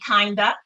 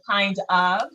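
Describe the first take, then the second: First: The two words blend into one reduced word. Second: The two words are said fully and separately. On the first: The speaker calls it wrong. "I like to say kinda" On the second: The speaker calls it right. "instead of kind of"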